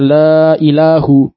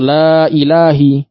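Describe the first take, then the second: First: The word ilah ends in a u vowel. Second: The word ilah ends in an i vowel. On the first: "tidak boleh dibaca la ilahu" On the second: "atau la ilahi. Tidak boleh"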